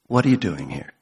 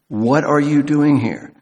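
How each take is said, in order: First: The question is asked in a soft, gentle tone. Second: The question is asked in a sharp, scolding tone. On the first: The question is a kind invitation, not a reproach. "He is saying in a gentle voice" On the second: The question is a reproach for being there. "God is taking him to task"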